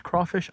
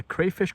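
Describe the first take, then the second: First: "crawfish" with CRAW rhyming with law; "crawfish", first syllable as craw; crawfish pronunciation. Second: "crayfish" with CRAY rhyming with day; "crayfish", first syllable as cray; crayfish pronunciation. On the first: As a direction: say "crawfish" with an aw vowel. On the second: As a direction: say "crayfish" with a long A. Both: Shown as a demonstration. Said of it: "I don't know how you pronounce it".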